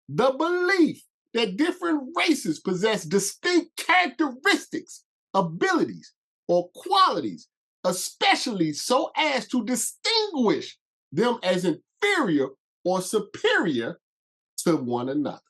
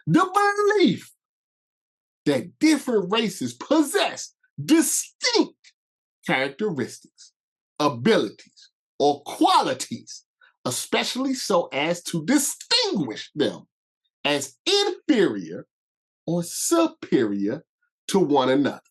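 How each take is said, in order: First: It is read at a normal pace. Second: It is read slowly.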